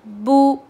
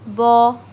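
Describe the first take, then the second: First: A thin vowel with fully rounded lips. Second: A thick vowel without fully rounded lips. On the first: The speaker calls it right. "मारूफ voice is ... अच्छे से होंठ पूरे गोल कर कर" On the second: The speaker calls it wrong. "मजहूल वॉइस ... so this is wrong"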